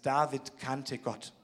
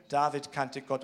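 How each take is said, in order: First: "David kannte Gott" slow and soft, each word weighed; slow emphatic statement. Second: Said in the usual way. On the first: Shown as a demonstration. Preacher to congregation, slow quiet emphasis.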